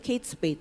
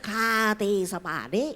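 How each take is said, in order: First: The first word is said as one word. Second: The first word is said as two letters. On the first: The speaker calls it right. "Dan itu betul, memang bacanya Kate Spade" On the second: The speaker calls it wrong. "Kalau saya nyebutnya K T Spade itu bukan dompet dari Amerika"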